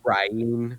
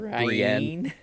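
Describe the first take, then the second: First: The name is said like Brian. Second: The name is said as Bree-en. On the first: This is how the narrator says it. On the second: This is the usual name. "how he pronounces like Brienne"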